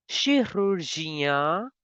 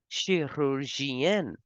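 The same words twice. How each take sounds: First: Chirurgien slow, ending nasal; masculine form. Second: Chirurgienne slow, with a clear n at the end; feminine form. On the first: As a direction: say the masculine slowly. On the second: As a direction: say the feminine slowly. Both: Shown as a demonstration. Teacher contrasts male and female surgeon. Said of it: "Female surgeon as chirurgienne".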